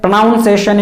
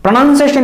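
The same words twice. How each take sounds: First: Pronunciation with "noun" in the second syllable; wrong pronunciation. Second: Pronunciation with "nun" in the second syllable; correct pronunciation. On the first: Teacher showing learners the mistake, wrong pronunciation with "noun". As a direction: say pronunciation as "pro-noun-ciation". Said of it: "pronunciation is wrong". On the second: Teacher showing learners the right form, correct pronunciation with "nun". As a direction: say pronunciation as "pro-nun-ciation". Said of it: "Pronunciation is correct". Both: Shown as a demonstration.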